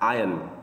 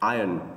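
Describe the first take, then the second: Both takes have the same delivery.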